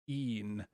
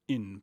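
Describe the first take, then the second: First: The vowel is a long ee sound. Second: The vowel is a short i sound. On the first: The speaker calls it right. "that nice Latin E" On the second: The speaker calls it wrong. "not a short in"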